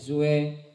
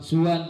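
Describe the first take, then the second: First: It ends in an e-like vowel. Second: It ends in an open a sound. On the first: "ibaca suwe" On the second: "waqaf suwan"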